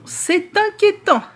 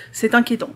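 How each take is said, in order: First: Much higher, slow mock alarm; mock worried. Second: Said in the usual way. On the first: Shown as a demonstration. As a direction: stretch it out, high and theatrical. Repeats the remark, second take dramatised. (faussement inquiet, aigu et lent)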